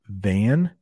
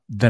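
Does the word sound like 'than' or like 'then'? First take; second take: than; then. First: The word has the full 'a' vowel, like 'than'. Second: The word has a reduced vowel, sounding like 'then'. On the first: "So it's pronounced than" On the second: "It sounds like then, but I'm actually saying than"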